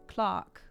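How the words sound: It is said in a British accent. "They pronounce it Clark here"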